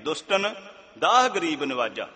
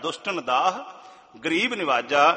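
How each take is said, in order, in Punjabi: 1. ਵਿਰਾਮ 'dushtan' ਤੋਂ ਬਾਅਦ ਆਉਂਦਾ ਹੈ, 'daah garib' ਨੂੰ ਜੋੜਦਾ ਹੋਇਆ। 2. ਵਿਰਾਮ 'daah' ਤੋਂ ਬਾਅਦ ਆਉਂਦਾ ਹੈ, 'dushtan daah' ਨੂੰ ਜੋੜਦਾ ਹੋਇਆ। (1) "ਸਾਡੇ ਕੋਲੋਂ ਇਹ ਗਲਤੀ ਹੋ ਜਾਣੀ ਹੈ" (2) "ਗਰੀਬਾਂ ਨੂੰ ਸਾੜਨ ਵਾਲਾ ਨਹੀਂ, ਦੁਸ਼ਟਾਂ ਨੂੰ ਸਾੜਨ ਵਾਲਾ"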